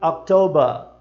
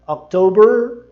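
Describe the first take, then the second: First: October ending in /ɐ/, falling; October britânico; British October. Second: October with a curled R, louder and rising; October americano alto; American October. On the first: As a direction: drop the R of October. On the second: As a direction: stretch the R in October. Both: Shown as a demonstration. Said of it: "Percebe a diferença?".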